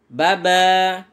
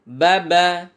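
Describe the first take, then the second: First: The final vowel is drawn out long. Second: The final vowel is short and quick. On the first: The speaker calls it wrong. "kadang memanjangkan di huruf akhir atau ekornya" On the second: The speaker calls it right. "membacanya pendek cepat"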